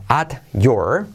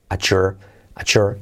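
First: "at your" drawn out, T and Y apart; separate words. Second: "At your" slurred into "achur"; linked T and Y. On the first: Teacher setting up the linking, "at your" unlinked. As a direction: say "at your" slowly as two words. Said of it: "la T más la Y se convierte". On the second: Teacher showing the linked form, "At your" as "achur". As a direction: join "At your" with a CH sound, twice. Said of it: "se convierte en una letra clave J". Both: Shown as a demonstration.

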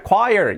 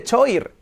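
First: Choir as KWAI-er; pronunciación real. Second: Choir as spelt, CHO-eer; como se escribe. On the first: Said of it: "¿Cómo es que se pronuncia". (choir pronunciado 'kuáier') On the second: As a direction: read "choir" literally with ch. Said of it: "Pero se escribe". (choir leído 'cho-ir') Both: Shown as a demonstration.

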